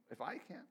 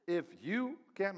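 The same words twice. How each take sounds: First: "if I can" with "I" carrying the weight, said softly; stress on I. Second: "If you can" with "you" stretched and lifted, slow; stress on YOU. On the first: Pastor showing the better stress, on "I". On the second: Pastor showing where the stress falls, on "you". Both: Shown as a demonstration. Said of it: "maybe the accent should be".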